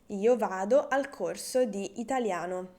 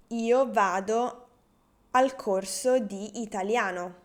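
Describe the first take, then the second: First: Said in the usual way. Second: Slow, carefully articulated first take; slow model sentence. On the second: Shown as a demonstration. Teacher first says the example slowly for beginners. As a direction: lay the words out slowly for the learners. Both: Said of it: "would be".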